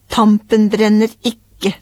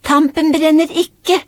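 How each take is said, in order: First: Slow, drawn-out game call; measured, drawn-out announcement. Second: High, slow singsong call; drawn-out, high-pitched mock shout; child calling out. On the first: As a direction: stretch out the words teasingly slowly. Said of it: "sa pappa". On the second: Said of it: "ropte Aurora". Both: A narrator's reading.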